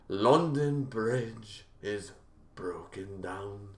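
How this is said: It is said in a put-on British accent.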